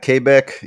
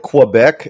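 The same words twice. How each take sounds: First: The name is pronounced with a French-style pronunciation. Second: The name is pronounced with an English-style pronunciation.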